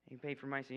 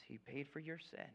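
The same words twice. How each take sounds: First: "my" leaned on, turned back to himself; "my" weighted, confessing it personally; stress on my. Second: "your" leaned on, softer; "your" weighted as you point at them; stress on your. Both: Acted. Preacher contrasts your and my.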